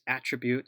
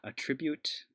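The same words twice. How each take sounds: First: The stress falls on the first syllable. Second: The stress falls on the second syllable. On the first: It is the noun, a named element of an object. The speaker calls it right. "it's attribute" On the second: It is the verb, meaning to credit something. The speaker calls it wrong. "not attribute. I think this is the verb over here"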